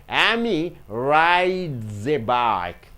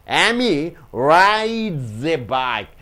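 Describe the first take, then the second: Both takes have the same delivery.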